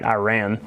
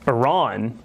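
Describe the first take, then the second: First: Iran is said in the American way. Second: Iran is said in a non-American way. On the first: It is the usual American pronunciation. The speaker calls it right. "I'm going to say it right. The American way to say it" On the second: It echoes how politicians say it. The speaker calls it wrong. "or sorry"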